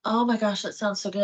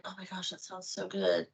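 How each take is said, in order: First: Said in the usual way. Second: Very soft, wistful self-talk; hushed craving. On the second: Retold or imitated. Woman craving a cookie tells herself, hushed and tempted. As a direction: say it under your voice, tempted.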